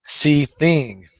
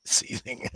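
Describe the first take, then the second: First: Seething called out loud with a long fall; Seething shouted out in full voice. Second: Breathy whispered Seething, no voice; Seething said as a soft whisper. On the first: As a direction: belt out Seething. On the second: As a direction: hiss the word Seething under the breath. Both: Shown as a demonstration. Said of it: "You can say that a different way".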